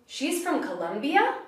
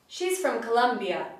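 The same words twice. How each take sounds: First: The voice rises at the end. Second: The voice falls at the end. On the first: The speaker is surprised. "with my voice going up at the end" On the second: It is a certain statement. "with falling intonation"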